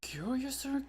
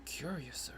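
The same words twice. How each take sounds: First: Said in the usual way. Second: Breathy unvoiced whisper. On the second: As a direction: whisper it secretively. Repeats word in different voices.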